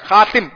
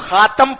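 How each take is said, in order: First: The vowel after the t is a short i. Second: The vowel after the t is a short a. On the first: "یا تا کے نیچے زیر لگائیں" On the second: "تو خاتم پڑھیں"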